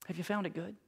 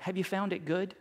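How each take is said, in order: First: Asked again, much softer and hushed; soft repeat. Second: Said in the usual way. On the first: Acted. Pastor repeating his question to the congregation, much softer. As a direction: drop it almost to a murmur, letting it sink in.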